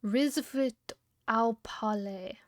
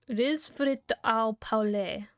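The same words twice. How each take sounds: First: Retry "Risfrit au palais" more smoothly; second French try. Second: Very slow, syllable by syllable "Risfrit au palais"; French attempt. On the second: Streamer trying a French phrase from chat, slow and careful. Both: Shown as a demonstration. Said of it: "Did I do that one right?".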